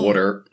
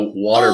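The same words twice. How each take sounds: First: It is said in a Pennsylvania accent. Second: It is said in a standard accent. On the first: "has Pennsylvania accents" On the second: "similar to how water becomes"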